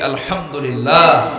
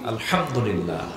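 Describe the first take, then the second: First: It is said more loudly. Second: It is said at normal volume.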